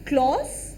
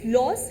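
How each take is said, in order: First: The name begins with a K sound. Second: The name begins with an L sound. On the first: The speaker calls it wrong. "क्लॉस बहुत लोग बोलते हैं" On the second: The speaker calls it right. "के is silent"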